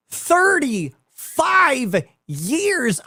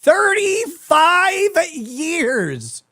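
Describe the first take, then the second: First: Thirty-five years dragged out very slowly and high; incredulous. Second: Thirty-five years drawn out very slowly, pitched even higher; incredulous. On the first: Stunned emphasis on the age. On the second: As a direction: hold every syllable of Thirty-five years in disbelief. Repeated, even more stunned. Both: Real, not acted.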